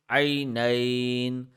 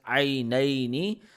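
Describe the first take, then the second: First: The final vowel ending is dropped. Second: The final vowel ending is pronounced. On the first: The reciter stops on this word. "in stopping mode" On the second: The reciter continues without stopping. "In regular mode"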